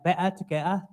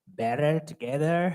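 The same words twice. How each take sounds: First: It is said in a London Cockney accent. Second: It is said in an American accent.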